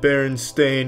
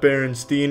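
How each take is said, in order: First: The last syllable sounds like 'stain'. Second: The last syllable sounds like 'steen'. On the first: The speaker calls it right. "It's always been Berenstain" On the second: The speaker calls it wrong. "they all want to pronounce it Steen"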